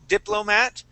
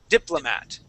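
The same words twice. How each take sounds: First: The middle vowel is a full 'oh' sound. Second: The middle vowel is a reduced 'uh' sound. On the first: The speaker calls it wrong. "instead of saying diplo" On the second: The speaker calls it right. "we would usually pronounce that O as an uh sound"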